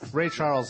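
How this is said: The name is pronounced with English sounds. The speaker calls it right. "[name] in English"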